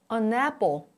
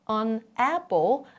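First: The n starts the next syllable, 'a napple'. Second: The n stays at the end of 'an'.

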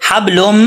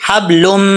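The two takes are said the same way.

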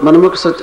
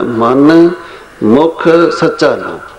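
First: It is read quickly without any pause. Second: It is read with a slight pause inside.

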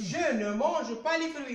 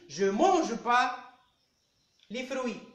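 First: The word 'ne' is pronounced before the verb. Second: The word 'ne' is dropped before the verb. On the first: This is the written form. "j'écris, je ne mange pas les fruits" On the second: This is the everyday spoken form. "Mais à l'oral, je dis"

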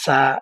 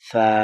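First: The tongue tip touches the gums, giving a sharp sound. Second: The tongue tip touches the teeth, giving a soft sound. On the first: The speaker calls it wrong. "এইভাবে বলবেন না ... মাড়ির সাথে লাগে" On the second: The speaker calls it right. "জিহ্বার আগাটা সামনের উপরে 2 দাঁতের আগার সাথে লাগাবেন"

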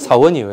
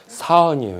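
First: The phrase is said plainly, in an ordinary way. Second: The phrase is said in an exaggerated, marked way. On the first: It is an ordinary statement of a job title. The speaker calls it right. "그냥 사원이에요. 이러면 안 됩니까?" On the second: It sounds like a person's name. The speaker calls it wrong. "이렇게 해야 됩니까? 사원이라니까 사람 이름 같습니다"

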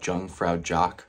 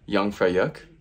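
First: It is read the way English spelling suggests. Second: It is said with its native local pronunciation. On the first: The speaker calls it wrong. "for you English speakers, it looks like Jungfraujoch. It's not pronounced that way" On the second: The speaker calls it right. "It's Jungfraujoch"

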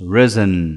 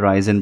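First: The first vowel is short, like 'ih'. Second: The first vowel is long, like 'eye'. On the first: The speaker calls it right. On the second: The speaker calls it wrong.

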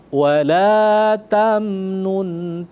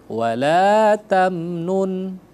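Both takes have the same delivery.

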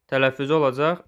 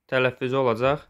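Both takes have the same delivery.

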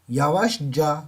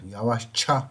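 First: The suffix starts with a voiced j sound. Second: The suffix starts with a voiceless ch sound. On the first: The speaker calls it wrong. "Normalde ekimiz ca" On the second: The speaker calls it right. "sonunda sert bir harf olduğu için bu buna diyor ki gel diyor"

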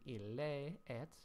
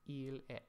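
First: Both vowels are pronounced as separate syllables. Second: The first vowel is dropped into the next. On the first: The speaker calls it wrong. "you're not going to read ille et" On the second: The speaker calls it right. "you're going to read il et"

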